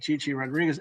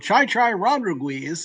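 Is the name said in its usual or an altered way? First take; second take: usual; altered. First: The name is said with its usual sounds. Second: The name is said with altered vowel sounds. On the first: The speaker calls it right. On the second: The speaker calls it wrong. "he would mispronounce"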